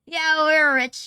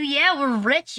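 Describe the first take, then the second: First: Drawn-out mock brag; slow, louder boast. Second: Said in the usual way. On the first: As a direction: savor it, slow and a bit louder.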